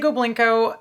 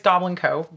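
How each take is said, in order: First: The name is run together as one word. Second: The name is said as two separate words. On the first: The speaker calls it wrong. "a lot of people say Goblinko" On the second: The speaker calls it right. "the correct pronunciation is Goblin Co. We are a goblin company"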